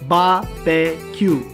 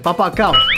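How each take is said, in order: First: The word is said as 'barbecue'. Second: The word is read out as 'bapa cow'. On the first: The speaker calls it right. "but it's actually pronounced as barbecue" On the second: The speaker calls it wrong. "I pronounce this as Bapa Cow"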